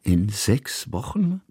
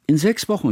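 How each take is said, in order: First: Slow questioning echo, rising on Wochen; disbelieving repeat. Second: Put-on high child's voice, stress on sechs, falling; a quick high chime-in, sechs stressed; childlike interjection. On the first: Kusmin echoes the date in slow disbelief. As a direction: repeat it slowly, as if you can't believe it. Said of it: "wiederholte Kusmin". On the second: Hanaka chimes in about the move, high child's voice. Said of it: "warf Hanaka ein". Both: A narrator's reading.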